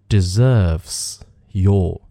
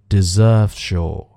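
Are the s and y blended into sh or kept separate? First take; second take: separate; blended. First: The s and y are kept as separate sounds. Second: The s and y blend into an sh sound.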